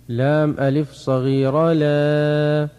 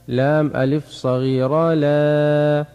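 No difference in how they are said.

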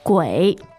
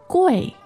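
First: The pitch dips low and then rises. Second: The pitch falls sharply from high to low. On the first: It means ghost. "Third tone" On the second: It means expensive. "If you said the fourth tone, which would be"

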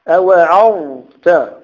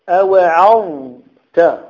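The two takes are said the same way.

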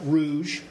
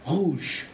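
First: The r is an English r. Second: The r is a French r from the throat. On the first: The speaker calls it wrong. "not rouge. It's not r" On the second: The speaker calls it right. "there's no r in French"

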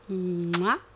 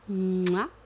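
The two takes are said the same way.

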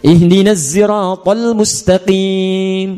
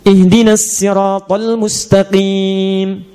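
First: Sirat begins with a voiced z sound. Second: Sirat begins with a plain, light s sound. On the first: This is a third traditional reading of the verse. "Di kunbul dari Ibnu Katsir pakai zai" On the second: This is a second traditional reading of the verse. "di qalun pakai sin"

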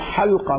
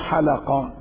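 First: The l has no vowel after it. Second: The l is followed by an a vowel. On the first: It refers to the ring or rim of the opening. The speaker calls it right. "ولام حلقة ساكنة" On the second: It is a plural meaning people who shave. The speaker calls it wrong. "مو حلقة"

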